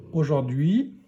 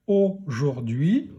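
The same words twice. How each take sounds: First: Said in the usual way. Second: Aujourd'hui slowly, "au", then "jour-d'hui"; aujourd'hui read haltingly slow; syllable by syllable. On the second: Shown as a demonstration. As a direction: stretch out and separate the syllables of aujourd'hui. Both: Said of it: "allez pouvoir lire aujourd'hui".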